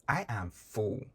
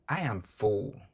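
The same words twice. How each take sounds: The two takes are said the same way.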